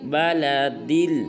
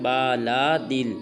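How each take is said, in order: First: The first two vowels are kept short. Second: The first two vowels are drawn out long. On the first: The speaker calls it right. "बल्कि दाल को लाम साकिन के साथ मिलाएंगे और पढ़ेंगे" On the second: The speaker calls it wrong. "ये बिल्कुल गलत है। बा को भी लंबा नहीं करना, लाम को भी लंबा नहीं करना"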